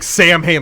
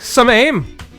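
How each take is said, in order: First: It is said as Sam Hain, with an h. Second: It is said as some aim, without h. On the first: The speaker calls it wrong. "I don't think you pronounce it like Sam Hain" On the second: The speaker calls it right. "I think it's like some aim"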